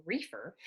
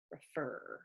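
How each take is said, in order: First: "reefer" with the weight on the front "ree"; stress on first syllable. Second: "refer" with the weight on the final "er"; stress on second syllable. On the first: Teacher contrasting stress patterns, "reefer" stressed at the front. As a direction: hit "ree" in "reefer", let "fer" go unstressed. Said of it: "would have the stress in the front". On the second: Teacher showing where stress falls, "refer" stressed on the end. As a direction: lean on the last syllable of "refer". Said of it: "I'm putting the stress on the er". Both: Shown as a demonstration.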